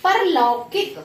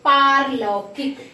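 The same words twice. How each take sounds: First: "परलौकिक" with short par; wrong short vowel. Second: "पारलौकिक" with long paar; slow "पारलौकिक", stretch paa; corrected long vowel. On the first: Teacher shows a small mistake, "परलौकिक" with short par. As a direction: say "परलौकिक" opening on quick par. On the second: Teacher corrects students, "पारलौकिक" with drawn-out paar. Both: Shown as a demonstration. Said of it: "छोटी छोटी सी गलतियां".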